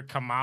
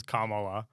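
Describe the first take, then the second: First: Kamala said kuh-MAH-luh; middle-syllable pronunciation. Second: Kamala said KAH-muh-luh; first-syllable pronunciation. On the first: Recalling what the news says, Kamala stressed mid-word. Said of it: "when I listen to the news, I hear". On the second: Recalling how a politician says it, Kamala stressed up front. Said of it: "when I think of Tim Waltz saying it". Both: Retold or imitated.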